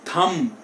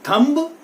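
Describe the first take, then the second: First: The final b is silent. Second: The final b is sounded. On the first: The speaker calls it right. "It is थम" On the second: The speaker calls it wrong. "ना कि थंब पढ़ेंगे"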